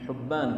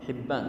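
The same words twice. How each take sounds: First: The first vowel is a u sound. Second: The first vowel is an i sound. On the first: This is the rare reading of the name. "حبان بالضم فرد" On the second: This is the common reading of the name. "والباقي الأعم هو حبان بالكسر"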